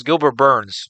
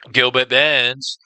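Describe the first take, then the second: First: Said in the usual way. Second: Slow, dramatic drawn-out name. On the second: Shown as a demonstration. Host savoring a fighter's name, slow and drawn out. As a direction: stretch the name out like an announcer.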